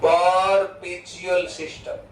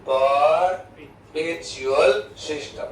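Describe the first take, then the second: First: Perpetual system said very slowly, syllable by syllable; slow dictation. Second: Perpetual system drawn out even slower; slow dictation. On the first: (perpetual system ધીમે ધીમે લખાવતા) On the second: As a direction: stretch perpetual system for students to copy. (perpetual system ખૂબ ધીમે લખાવતા) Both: Shown as a demonstration. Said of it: "એનું બીજું નામ બી છે".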